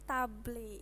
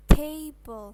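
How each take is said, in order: First: "table" read as written, TAH-bleh; spelling pronunciation. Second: "table" said TAY-bol, with A as ay; English pronunciation. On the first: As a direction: sound out "table" with Indonesian vowels, tah-bleh. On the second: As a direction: model "table" clearly and louder as TAY-bol. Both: Shown as a demonstration.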